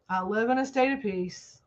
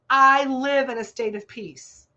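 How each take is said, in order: First: It is said weakly, without conviction. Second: It is said firmly, with conviction. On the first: The speaker does not really believe it. The speaker calls it wrong. "You don't say it like this" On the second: The speaker truly believes it. The speaker calls it right. "just like I said it. ... Say it with authority"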